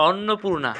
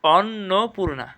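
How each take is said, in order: First: Said in the usual way. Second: "অন্নপূর্ণা" slowly as অন্-নো-পূর্ণা; correct pronunciation. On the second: Shown as a demonstration. Teacher answering own question, "অন্নপূর্ণা" slow and split. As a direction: separate the pieces of "অন্নপূর্ণা". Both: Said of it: "সঠিক উচ্চারণ কী হবে".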